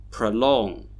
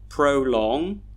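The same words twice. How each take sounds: First: "prolong" with a weak pruh, pruh-LONG; schwa first syllable. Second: "prolong" with a full pro like proh; spelled-out pronunciation. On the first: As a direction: reduce the pro of "prolong" to a schwa. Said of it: "we should hear". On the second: Teacher showing the spelled way to learners, full vowels. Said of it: "we would not pronounce them in the way they are spelled". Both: Shown as a demonstration.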